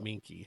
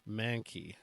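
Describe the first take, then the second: First: The first vowel sounds like 'min'. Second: The first vowel sounds like 'man'. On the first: The speaker calls it wrong. "not minky" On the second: The speaker calls it right.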